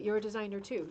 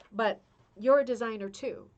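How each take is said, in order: First: Said in the usual way. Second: Urging them, a little louder on "you're"; emphatic, louder. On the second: Shown as a demonstration. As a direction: stress on "you're", said loud and warm.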